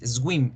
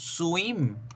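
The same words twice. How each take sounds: First: The W is said with a G-like sound. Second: The W is said as a plain U sound. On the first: The speaker calls it wrong. "tratan de hacer la W como la G con la U con diéresis" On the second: The speaker calls it right. "nadar es con U. Esa es la pronunciación"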